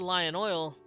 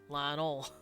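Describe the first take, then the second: First: Neutral accent, every sound fully pronounced. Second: Southern accent, some sounds dropped. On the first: "you don't say Lion Oil in the South" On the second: "You say Lion Oil. You drop a lot of letters"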